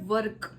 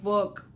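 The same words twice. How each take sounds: First: The word is said with Punjabi-influenced pronunciation. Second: The word is said with standard English pronunciation. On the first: The speaker calls it wrong. "So वर्क को हम क्या बोल देते हैं, वर्क, because हम हमारी habit है" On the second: The speaker calls it right. "हमने बोलना होता है वर्क"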